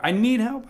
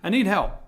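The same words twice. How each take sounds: First: "I need help." said a bit higher, with NEED lifted; a touch higher plea. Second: Said in the usual way. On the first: Real, not acted. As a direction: lift the plea slightly, with NEED carried up. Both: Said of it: "Sorry, that's a bad word".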